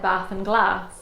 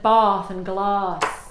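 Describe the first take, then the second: First: It has the short northern English vowel. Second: It has the long southern English vowel.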